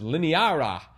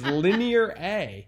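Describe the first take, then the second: First: The final A blends into one word. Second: The final A is said as a letter. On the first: The speaker calls it wrong. "I kept trying to pronounce it as lineara" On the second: The speaker calls it right. "I see it's linear A"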